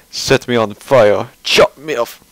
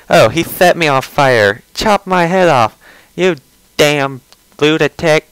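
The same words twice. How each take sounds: First: Wrong voice for him. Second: Higher, put-on whiny voice, slowing at the end; mock his whiny rant; hammed-up imitation of a whiny creator; Chris Chan impression. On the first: Retold or imitated. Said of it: "that's not appropriate voice for him". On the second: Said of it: "That's pretty much his voice".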